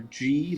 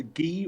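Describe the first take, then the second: First: "gi" said with a soft g, like jee; soft-g "gi", rhyming with key. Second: "gi" said with a hard g; hard-g "gi", rhyming with key. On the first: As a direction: say "gi" with a j sound. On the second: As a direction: say "gi" with g as in geese. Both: Shown as a demonstration. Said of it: "I believe the term is".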